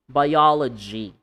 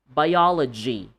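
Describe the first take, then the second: No difference in how they are said.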